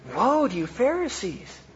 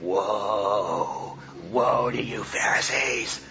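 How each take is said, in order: First: It is said in a gentle, compassionate tone. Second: It is said in a harsh, condemning tone.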